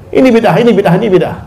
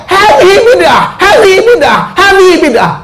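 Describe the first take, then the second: First: Said in the usual way. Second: Abu Jahal shouting. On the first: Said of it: "Itu cara Abu Jahal berdakwah dulu". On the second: Retold or imitated. Abu Jahal on a rock yelling at the Prophet, shouting. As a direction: cry it out from the rock like a villain. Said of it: "Dia berteriak".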